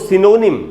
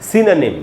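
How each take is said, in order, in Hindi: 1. यह शब्द si-na-nim की तरह नहीं बोला जाता। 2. यह शब्द si-na-nim की तरह बोला जाता है। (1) "इसको सिनोनिम नहीं बोलना है, सिनोनिम इसका एकदम ही गलत उच्चारण है" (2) "इसका करेक्ट प्रोनाउंसिएशन है सिनोनिम, यानी सी न निम"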